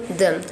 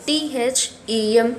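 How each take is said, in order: First: Said in the usual way. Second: Letter by letter, T H E M; spelled T H E M for the class. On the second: Shown as a demonstration. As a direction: spell the word them one letter at a time. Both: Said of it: "You have to write in this one them".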